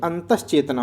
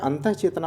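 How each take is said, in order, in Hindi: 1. पहला हिस्सा 'sh' ध्वनि के साथ जुड़ता है। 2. पहला हिस्सा एक हल्की 'ah' ध्वनि पर खत्म होता है। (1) "बल्कि अंतश्चेतना होता है" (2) "क्या अंतः चेतना होता है, तो नहीं"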